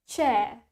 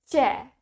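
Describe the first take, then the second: Both takes have the same delivery.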